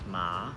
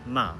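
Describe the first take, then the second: First: The pitch starts low, dips, then rises. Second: The pitch falls sharply from high. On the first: "Third tone ma, starts low, dips, then rises" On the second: "Fourth tone ma, it's very sharp, falling"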